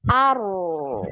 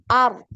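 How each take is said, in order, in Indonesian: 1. Bunyi r dilepaskan dan mengalir terus. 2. Bunyi r dihentikan mendadak setelah satu ketukan. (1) "yang dialirkannya aru" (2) "langsung langsung direm"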